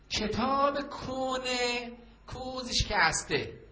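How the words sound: It is said in an imitated peddler's accent.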